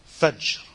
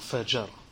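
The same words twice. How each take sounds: First: The middle consonant has no vowel after it. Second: A vowel is added after the middle consonant. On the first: The speaker calls it right. "you have to have the sukoon on the middle letter" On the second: The speaker calls it wrong.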